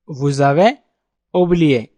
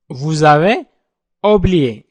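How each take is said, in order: Both takes have the same delivery.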